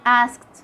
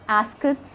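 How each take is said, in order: First: The ending is said without any extra syllable. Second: The ending is voiced as a separate extra syllable. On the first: The speaker calls it right. "Drop the sound of the E" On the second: The speaker calls it wrong. "We don't say asked"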